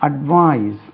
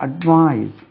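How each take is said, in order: Both takes have the same delivery.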